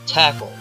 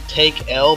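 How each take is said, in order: First: The first vowel is short, as in 'tack'. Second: The first vowel is long, as in 'take'. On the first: "I think it's Tackle" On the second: "I kind of said Take L before"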